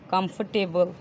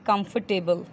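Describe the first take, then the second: No difference in how they are said.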